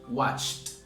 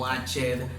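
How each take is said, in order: First: The ending is a single voiceless t sound. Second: The ending is an extra syllable, like id. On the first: The speaker calls it right. "cuando digo watched, en pasado, tampoco vibra la terminación" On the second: The speaker calls it wrong. "que ya dejen de decir ed en todas partes, que no digan watched"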